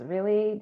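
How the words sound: It sounds weary and annoyed. The listener is tired of the topic. "do we have to talk about this again?"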